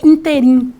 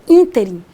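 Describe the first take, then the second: First: The stress falls on a later syllable. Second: The stress falls on the first syllable. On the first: The speaker calls it wrong. "que muita gente fala interim" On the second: The speaker calls it right. "é ínterim"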